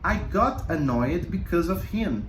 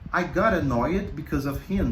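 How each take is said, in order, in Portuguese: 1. A frase é falada em ritmo normal. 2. A frase é falada em ritmo rápido.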